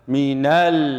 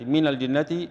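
First: The vowel after the n is fully open. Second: The vowel after the n is cut short. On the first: The speaker calls it right. "أستكمل الفتح بإنزال الفكل أسفل" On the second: The speaker calls it wrong. "زي الذي اختلسنا فتحة النون"

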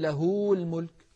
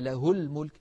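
First: The vowel after the h is lengthened. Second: The vowel after the h is short. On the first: The speaker calls it wrong. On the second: The speaker calls it right.

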